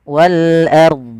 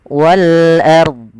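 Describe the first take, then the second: No difference in how they are said.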